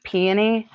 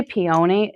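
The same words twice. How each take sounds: First: "peony" stressed on the first syllable, PEE-uh-nee. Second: "peony" with a long OH in the middle; peony as pee-OH-nee. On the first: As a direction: say "peony" with a short, weak middle: PEE-uh-nee. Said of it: "it just sounds so wrong to me". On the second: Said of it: "when people say peony". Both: Shown as a demonstration.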